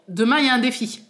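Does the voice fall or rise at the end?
falls. The voice falls at the end like a statement. It announces that there is a challenge. The speaker calls it right.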